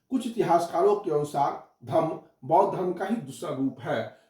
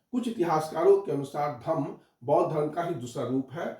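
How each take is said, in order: Both takes have the same delivery.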